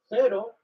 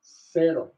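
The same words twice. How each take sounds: First: Spain Spanish accent. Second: Mexican Spanish accent. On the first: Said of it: "In Spain, we might say". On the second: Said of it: "in Mexico, we're going to say". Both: Shown as a demonstration.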